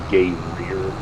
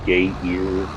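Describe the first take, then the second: First: The word is said as gay rear. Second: The word is said as gay ear. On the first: "people would call it"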